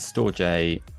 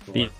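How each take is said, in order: First: It ends with a separate 'jay' sound. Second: It sounds exactly like the word 'storage'. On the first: The speaker calls it wrong. "I've been pronouncing it wrong" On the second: The speaker calls it right. "Storage is the correct pronunciation"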